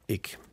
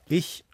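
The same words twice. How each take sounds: First: The word is said in the northern dialect form. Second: The word is said in the southern dialect form. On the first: "nördlich Ich" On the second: "südlich sagt man im Dialekt Ich"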